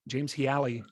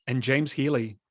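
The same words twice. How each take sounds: First: Healy drawn out as hee-ALLY, extra weight on the second syllable; stress on the wrong syllable. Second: Said in the usual way. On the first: Shown as a demonstration. Host mispronouncing co-host's name, wrong stress on Healy. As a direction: lean into the middle of Healy. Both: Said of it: "I put additional emphasis on the wrong syllable".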